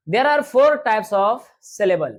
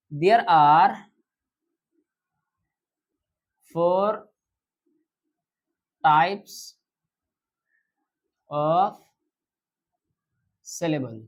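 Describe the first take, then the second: First: Slow, even dictation pace for the class; slow teacher dictation. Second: Each word set apart by long pauses; word-by-word dictation with long gaps. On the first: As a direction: read it out slowly so students can write. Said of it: "teacher slowly dictates the sentence". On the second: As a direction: dictate one word at a time, waiting between them. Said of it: "teacher repeats it word by word". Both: Shown as a demonstration.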